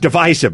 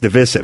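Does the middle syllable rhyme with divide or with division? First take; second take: divide; division. First: The middle vowel rhymes with the word divide. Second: The middle vowel is short, as in division. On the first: This is the older, familiar way. The speaker calls it right. "I was always divisive" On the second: This is the newer way. The speaker calls it wrong. "but now it's divisive"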